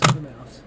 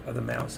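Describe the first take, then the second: First: A voiceless whisper of the repeat. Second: Said in the usual way. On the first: Real, not acted. Streamer repeats to himself about the other mouse, whispered. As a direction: breathe the words with no voice at all.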